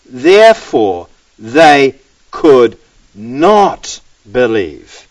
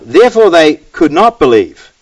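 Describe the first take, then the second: First: Very slow, each word set apart; slow, deliberate verse repeat; word-by-word emphasis. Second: Said in the usual way. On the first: Shown as a demonstration. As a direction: spell it out with pauses between words.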